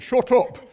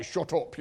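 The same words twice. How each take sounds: First: Higher, loud "Shut up"; loud retort. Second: Northern English "Shut up", not raised; northern English accent. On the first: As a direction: snap out a forceful "Shut up". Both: Acted. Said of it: "Well, that was North".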